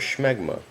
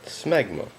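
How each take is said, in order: First: The word begins with a sh sound. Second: The word begins with a plain s sound. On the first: The speaker calls it wrong. "It's more fun to say it the second way" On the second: The speaker calls it right. "the first pronunciation is, is correct"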